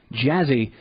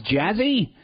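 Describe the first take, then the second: First: Said in the usual way. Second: Puzzled question. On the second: Retold or imitated. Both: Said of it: "He goes".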